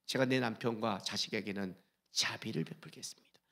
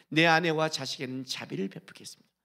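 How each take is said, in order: First: Soft whispered vow to God; whispered prayer. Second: Said in the usual way. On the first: Acted. Pastor voicing a believer's prayer, whispered. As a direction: breathe the promise like a private prayer. Prayer quote, then plain repeat.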